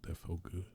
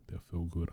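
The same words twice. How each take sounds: First: Whisper. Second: Said in the usual way. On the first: Real, not acted. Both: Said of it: "I like that".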